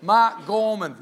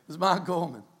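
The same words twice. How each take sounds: First: Booming name drop; name announced with emphasis. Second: Said in the usual way. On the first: Acted. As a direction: Mark Gorman punched out loud and falling. Announcing the famous speaker's name.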